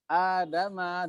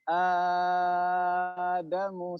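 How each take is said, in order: First: The long vowel is held for two counts. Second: The long vowel is held for six counts.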